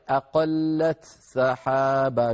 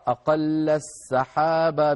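First: The t is pronounced clearly before the s. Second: The t merges into a doubled s sound. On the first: "بإظهار التاء عند السين" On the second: "بإدغام التاء في السين"

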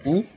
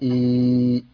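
First: The vowel is short, a single beat. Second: The vowel is long, held for two beats. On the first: "ألف همزة وكسرة إي" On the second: "ألف همزة وكسرة مادة طبيعية حركتين إي"

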